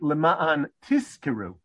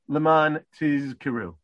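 First: Both middle consonants are unvoiced, s and k. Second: A voiced z is followed by an unvoiced k. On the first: "which are both unvoiced" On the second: "if you pay attention, you say"

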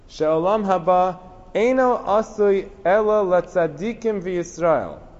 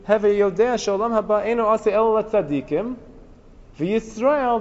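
First: It runs on without a break before v'Yisrael. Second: There is a break before v'Yisrael.

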